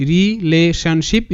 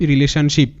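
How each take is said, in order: First: Very slow, rising at the end; syllable by syllable. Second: Said in the usual way. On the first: Shown as a demonstration. Teacher sounds out the last word for students, syllable by syllable. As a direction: sound out relationship in separate parts. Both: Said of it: "ভাঙবো তারপরই উচ্চারণটা করব".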